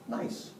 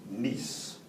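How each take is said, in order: First: It is said like the English word nice. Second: It is said with the French pronunciation. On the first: "This nice place is called Nice" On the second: "Except in France, they say it this way"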